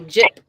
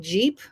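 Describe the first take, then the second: First: The vowel is short, in a Filipino accent. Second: The vowel is long, as in standard English. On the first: "they say Jip" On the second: "They don't say Jeep"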